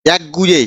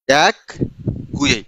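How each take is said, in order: First: Said in the usual way. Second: এক and Gue said apart with a pause between; split into parts. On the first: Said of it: "একটা শব্দ আছে হচ্ছে". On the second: Shown as a demonstration. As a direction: dictate এক, pause, then Gue. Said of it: "এই গুয়ে মানে হচ্ছে মুখ".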